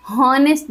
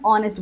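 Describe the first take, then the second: First: हॉनेस्ट starting on a breathed H sound; wrong sounded H. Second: ऑनेस्ट starting straight on the vowel; silent H. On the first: Teacher rejecting a wrong form for students, हॉनेस्ट with H pronounced. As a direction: voice the H in हॉनेस्ट as a mistake. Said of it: "हॉनेस्ट नहीं बोल सकते". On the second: Teacher giving students the spoken form, ऑनेस्ट with silent H. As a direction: drop the H, say ऑनेस्ट from an open "o". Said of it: "हम ऑनेस्ट बोलेंगे". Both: Shown as a demonstration.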